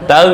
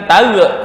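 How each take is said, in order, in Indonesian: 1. Konsonan akhir ditahan halus tanpa memantul. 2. Konsonan akhir dilepas dengan gema memantul.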